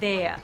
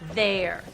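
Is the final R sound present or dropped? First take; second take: dropped; present. First: The R sound at the end is dropped. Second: The R sound at the end is pronounced. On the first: "in a New York sound you might hear there" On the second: "there are R sounds at the ends of a lot of words"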